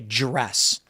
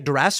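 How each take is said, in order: First: The word begins with a 'j' sound. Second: The word begins with a plain 'd' sound. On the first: "we say" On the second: "we don't say"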